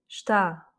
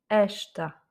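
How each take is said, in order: First: The stress is on the last syllable. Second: The stress is on the first syllable. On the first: "c'est le A que je prononce plus fortement" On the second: "et non pas, par exemple, esta, qui est un autre mot"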